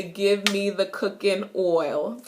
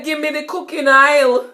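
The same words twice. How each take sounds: First: Said in the usual way. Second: "Gimme the cooking oil" in Jamaican, oil as /aɪl/, higher and louder; lively Jamaican patois request. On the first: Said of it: "I just say". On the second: Shown as a demonstration. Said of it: "me say".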